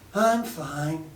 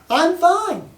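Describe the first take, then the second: First: It sounds down, like she is not well. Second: It sounds cheerful, like she is doing well.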